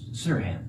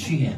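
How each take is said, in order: First: The name begins with a plain s sound. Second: The name begins with an sh sound. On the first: This is how speakers without the sound say it. "It turns out it's Sirhan" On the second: This is the name's own form. "no, my name is Sheehan"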